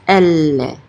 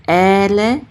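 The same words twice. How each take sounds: First: "elle" with the l held long before the final vowel; doubled lamed. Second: "ele" split into two short even syllables; wrong two-syllable version. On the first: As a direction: lean on the l in "elle" and hold it. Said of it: "it's elle". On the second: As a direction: say "ele" as e-le with no held l. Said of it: "instead of ele". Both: Shown as a demonstration.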